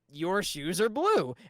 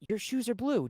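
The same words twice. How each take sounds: First: It sounds agitated and irritated. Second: It sounds disappointed and let down. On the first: The speaker is getting annoyed. "that might make me agitated" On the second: The listener still does not get it. "that might make you disappointed. Like"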